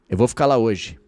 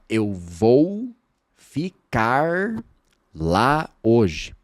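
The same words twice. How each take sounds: First: Sounds are reduced and run together fluidly. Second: Every sound is pronounced fully and carefully. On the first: The speaker calls it right. "Olha a frase" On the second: The speaker calls it wrong. "Você não fala"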